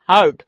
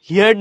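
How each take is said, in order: First: The vowel is a single 'er' sound throughout. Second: The vowel glides like 'hear' before the r. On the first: The speaker calls it right. "এটা হার্ট" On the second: The speaker calls it wrong. "হিয়ার্ড না, কিন্তু অনেকে কিন্তু আবার হিয়ার্ড বলে"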